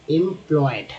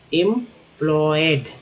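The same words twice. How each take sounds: First: Said in the usual way. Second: एम्प्लॉयड said slowly, sound by sound; slow syllable demo. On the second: Shown as a demonstration. Teacher modelling एम्प्लॉयड slowly for learners. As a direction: draw out एम्प्लॉयड for the students. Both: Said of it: "ईएम को एम बोलते हैं".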